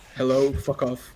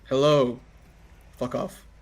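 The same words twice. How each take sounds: First: There is only a short pause after hello. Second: There is a long pause after hello. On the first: The speaker calls it wrong. "there's gotta be a bigger pause between hello and fuck off" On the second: The speaker calls it right. "Pretty good"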